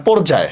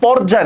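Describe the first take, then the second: First: পর্যায় with a rounded "o", por-jay; correct o vowel. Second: পর্যায় with an open "aw", pawr-jay; wrong open vowel. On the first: Teacher correcting for students, পর্যায় with closed "o". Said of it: "যেমন পর্যায় না, পর্যায়". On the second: Teacher showing what not to say, পর্যায় with open "aw". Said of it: "যেমন পর্যায় না". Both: Shown as a demonstration.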